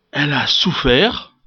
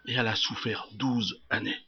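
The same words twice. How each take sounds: First: Said in the usual way. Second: Soft, low and grave; hushed repetition. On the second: Acted. Preacher repeating her twelve years of suffering, hushed. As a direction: drop right down to let it sink in.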